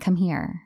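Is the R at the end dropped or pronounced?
pronounced. It has an American accent with the R.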